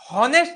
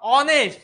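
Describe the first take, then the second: First: The word starts with an audible h sound. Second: The word starts with a vowel, no h. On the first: The speaker calls it wrong. "याला हॉनेस्ट नाही म्हणत मी" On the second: The speaker calls it right. "इथं यच काय आहे? Silent"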